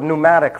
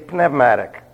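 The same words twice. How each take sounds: First: The first P is silent. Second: The first P is pronounced. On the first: This is the usual English way of saying it. The speaker calls it wrong. "only because they mispronounced the word" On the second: This keeps the original Greek sound. The speaker calls it right. "It should be pneumatic"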